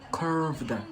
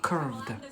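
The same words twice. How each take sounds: First: It is said in an American accent. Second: It is said in a British accent. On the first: "So they say curved, curved. They pronounce it like this" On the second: "In Britain here, curved, curved. Proper English accent"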